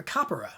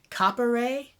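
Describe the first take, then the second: First: "capera" with a short, lax final "eh". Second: "capere" ending in a long "ay"; long final E. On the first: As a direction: end "capera" on a short weak eh. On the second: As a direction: end "capere" on a drawn-out ay. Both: Shown as a demonstration. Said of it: "how short is the short E".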